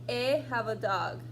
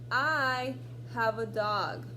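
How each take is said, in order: First: The first word is said like short 'eh'. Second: The first word is said like 'eye'. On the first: The speaker calls it wrong. "if you use the sound that this letter makes when you blend it, it sounds like this" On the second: The speaker calls it right. "you're going to pronounce it I"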